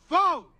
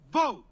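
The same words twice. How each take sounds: First: Loud rallying call. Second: Said in the usual way. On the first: Shown as a demonstration. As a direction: call it out to get the crowd going. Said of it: "No. Say". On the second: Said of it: "I want you to say".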